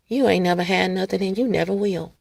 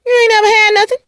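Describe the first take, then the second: First: Much softer, quietly menacing; soft and low. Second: High crying delivery. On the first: Acting the insult for viewers, softly and lower. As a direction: say it under your breath, low. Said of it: "Let me say it another way". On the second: Acting out the line for viewers, higher and tearful. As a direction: wail it like it wounds. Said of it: "Let me say it like that". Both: Shown as a demonstration.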